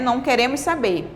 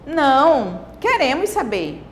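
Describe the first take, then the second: First: It is said with no pause after não. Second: There is a pause after não.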